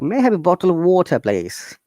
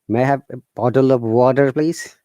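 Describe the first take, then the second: First: The T sounds are clear, strong Ts. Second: The T sounds are soft D-like flaps.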